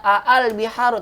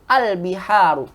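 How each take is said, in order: First: The opening vowel is split into two separate syllables. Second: The opening vowel is merged into one syllable. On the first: The speaker calls it wrong. "kita nggak baca a al-biharu" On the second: The speaker calls it right. "tapi al-biharu"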